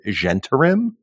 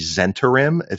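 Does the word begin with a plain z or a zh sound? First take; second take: zh; plain z. First: The word begins with a soft zh sound. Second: The word begins with a plain z sound. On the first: This is the revised way of saying it. The speaker calls it right. "oh, is it Zentarim?" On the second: This is the old, assumed way of saying it. The speaker calls it wrong. "what in my mind used to be the Zentarim"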